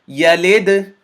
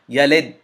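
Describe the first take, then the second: First: The final d is released with a bouncing echo. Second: The final d stops abruptly without an echo. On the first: The speaker calls it right. "because I bounced or echoed the sound of the dal" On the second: The speaker calls it wrong. "If I were to not do the qalqala, it would become like this"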